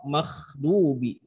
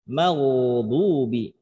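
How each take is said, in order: First: The consonant is a voiceless, rough kh sound. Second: The consonant is a voiced gh sound. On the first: The speaker calls it wrong. "bukan makhdubi" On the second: The speaker calls it right.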